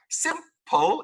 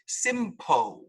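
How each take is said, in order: First: The final L sound is clearly pronounced. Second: The final L sound is dropped. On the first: The speaker calls it right. "There is an L in the, all of these words" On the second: The speaker calls it wrong. "this word is not pronounced simpo"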